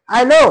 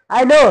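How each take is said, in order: No difference in how they are said.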